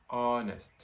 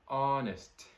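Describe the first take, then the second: The two takes are said the same way.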